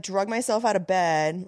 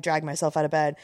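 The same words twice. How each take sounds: First: "drug" as the past of drag; wrong past tense. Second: "dragged" with the open a vowel; corrected past tense. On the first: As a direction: say "drug myself", rhyming with rug. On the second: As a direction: say "dragged", rhyming with bagged. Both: Real, not acted.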